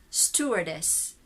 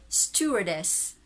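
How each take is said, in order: No difference in how they are said.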